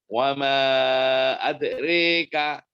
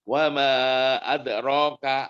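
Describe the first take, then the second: First: The vowel after r is a clear e. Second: The vowel after r is a fully open a. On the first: "rika itu imalah kubro"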